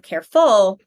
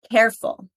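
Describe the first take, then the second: First: "careful" as care-FUL, louder second syllable; wrong syllable stress. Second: "Careful" as CARE-ful; stress on first syllable. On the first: Teacher shows wrong stress, "careful" as care-FUL. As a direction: punch the end of "careful". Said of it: "not careful". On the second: Teacher models correct stress, "Careful" with CARE strong. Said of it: "where we put the stress". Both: Shown as a demonstration.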